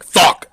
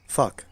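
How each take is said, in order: First: The word is yelled loudly and aggressively. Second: The word is said calmly and casually. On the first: The listener gets upset. "only if you yell it aggressively" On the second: The listener takes it as fine. "if you just say like"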